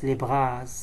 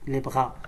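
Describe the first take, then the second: First: A final S sound is pronounced on bras. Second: Bras ends without any S sound. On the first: The speaker calls it wrong. "On ne prononce pas le S" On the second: The speaker calls it right.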